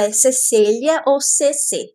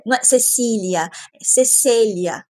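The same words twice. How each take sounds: First: "Cecília" slowly, se-se-lia, then "C C"; right name Cecília. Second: "Cecília" said slowly as se-se-LI-a; correct name Cecília. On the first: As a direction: spell out "C C" slowly. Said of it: "quando eu falar o nome dela". (diga "Cecília ou C C" bem devagar) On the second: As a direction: stress the right "Cecília", drawn out. (pronuncie "Cecília" devagar, como se-se-lia) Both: Shown as a demonstration.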